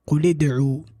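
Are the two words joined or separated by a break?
joined. The two words run together without a break. The speaker calls it right. "I have to join it. I have to connect it"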